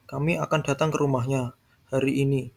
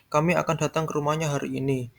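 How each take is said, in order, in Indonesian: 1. Tekanan jatuh pada kata hari ini. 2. Tekanan jatuh pada kata kami. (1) "Hari ini, bukan esok" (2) "Yang akan datang kami, bukan orang lain"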